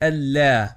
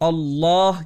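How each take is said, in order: First: The L is pronounced thin and light. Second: The L is pronounced thick and heavy. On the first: The speaker calls it wrong. "ना कि अल्लाह" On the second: The speaker calls it right. "इस सूरत में हम लाम को मोटा अदा करते हैं"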